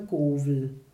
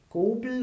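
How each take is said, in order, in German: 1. Der mittlere Konsonant ist ein W-Laut. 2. Der mittlere Konsonant ist ein B-Laut. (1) "oder auch wieder mit W" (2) "mehr mit B"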